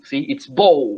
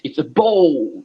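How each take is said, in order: First: Said in the usual way. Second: Bowl drawn out slowly; teacher slowing down to emphasize bowl; stress on bowl. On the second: Shown as a demonstration. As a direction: lean slowly on the word bowl. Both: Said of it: "I emphasize the word like that".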